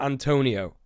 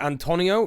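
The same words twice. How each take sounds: First: The O has an English vowel quality. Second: The O has a Portuguese vowel quality. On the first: The speaker calls it wrong. "not Antonio" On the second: The speaker calls it right. "Is it like Antonio"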